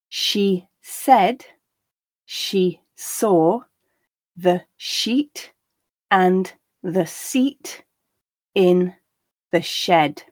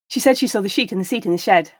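First: The sentence is said at a slow pace. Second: The sentence is said at a natural pace. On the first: "the first time slowly so that you can grasp the words" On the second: "the second and third time at a more natural pace"

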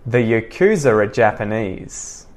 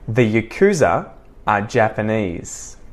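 First: The words are joined with a linking R. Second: The words are separated with no linking R. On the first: "I'm going to connect it all together using the intrusive R" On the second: "I'm going to say the following sentences disconnected"

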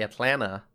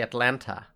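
First: The second T sound is dropped or softened. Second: The second T sound is clearly pronounced. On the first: "I don't say Atlanta" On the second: "similarly ... I say Atlanta"

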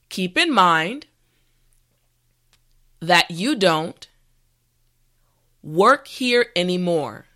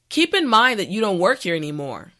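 First: The sentence is spoken at a slow pace. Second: The sentence is spoken at a natural pace. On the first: "this time repeat after me" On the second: "the last time at a regular pace"

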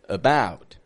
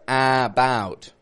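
First: The first vowel is reduced to a schwa. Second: The first vowel is a full, clear vowel. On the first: The speaker calls it right. "but about" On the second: The speaker calls it wrong. "I'm not saying about"

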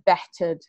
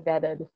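First: The middle consonant is a clear t sound. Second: The middle consonant sounds like a d. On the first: "instead of vetted" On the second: "my tert sounds like a dirt sometimes"

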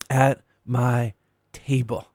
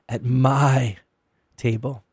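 First: The word "table" carries the stress. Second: The word "my" carries the stress. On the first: "emphasizing each of the three words" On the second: "emphasizing each of the three words"

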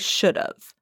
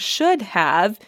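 First: The two words are contracted into 'should've'. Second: The two words are said in full, 'should have'. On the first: "you would say should've" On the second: "instead of saying should have"

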